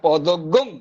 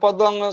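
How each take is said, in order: First: The word ends with an added 'gang' sound. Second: The word ends in a plain nasal sound. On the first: This is the Yajurvedic recitation. "যজুর্বেদীয় বা অব্রাহ্মণদের ঘরে করব" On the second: This is the ordinary recitation. "যেমন আমরা বিষ্ণু গায়ত্রী করি"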